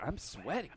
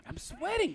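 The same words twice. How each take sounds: First: Said in the usual way. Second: Much higher, comic squeak; squeaky high pitch. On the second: Real, not acted.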